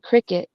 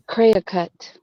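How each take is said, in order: First: The word is said in the usual plain way. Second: The word is said with an unusual accented pronunciation. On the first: This is how people usually say the name. "why they call the machine Cricut" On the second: It reveals the name comes from creative cutting. "she pronounced it Cricut"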